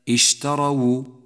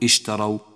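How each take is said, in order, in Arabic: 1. تأتي بعد الواو الأخيرة ضمة. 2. لا توجد حركة بعد الواو الأخيرة. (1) "فالفظها هكذا" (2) "ولا تقل اشتروا لأن الواو مضمومة"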